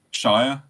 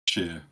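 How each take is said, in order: First: Shire rhyming with "fire"; said as SHY-er. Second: Sheer rhyming with "here". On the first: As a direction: pronounce Shire with a long "eye" vowel. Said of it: "I would say Shire as well". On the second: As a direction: pronounce Sheer with an "ee" vowel. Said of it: "a lot of people would say". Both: Shown as a demonstration.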